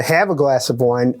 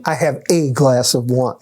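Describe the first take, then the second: First: Said in the usual way. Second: A said as a full, stressed word. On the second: Real, not acted. Telling the chiropractor about cutting back on wine, stress on A. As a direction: lean on A to mean just one. Limits himself to a single glass.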